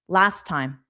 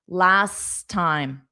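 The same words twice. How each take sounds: First: It is said quickly, as one word. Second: It is said slowly, the words apart.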